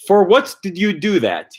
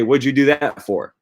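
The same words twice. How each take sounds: First: Mock stilted For what did you do that, what pitched much higher; awkward wrong version. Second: Said in the usual way. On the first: Shown as a demonstration. To the viewers, showing the wrong phrasing with a much higher mock stress. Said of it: "you wouldn't say". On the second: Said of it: "You'd say".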